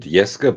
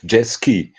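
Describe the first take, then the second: First: The name is said with a German pronunciation. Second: The name is said with an American pronunciation. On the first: "in German" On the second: "Americans say Jeski"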